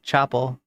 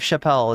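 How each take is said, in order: First: It sounds like the word chapel. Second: It sounds like the comedian's name Chappelle. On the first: The speaker calls it right. "It's like Chapel" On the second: The speaker calls it wrong. "Not not like Dave Chappelle"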